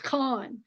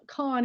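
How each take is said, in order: First: It starts with a rough sound from the throat. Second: It starts with a plain, hard k sound. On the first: The speaker calls it right. "it's got a guttural sound to it" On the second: The speaker calls it wrong. "is not"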